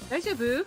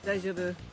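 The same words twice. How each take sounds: First: The pitch rises at the end. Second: The pitch falls at the end. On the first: It asks whether someone is okay. "is are you okay?" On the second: It states that someone is okay. "is the statement you're okay"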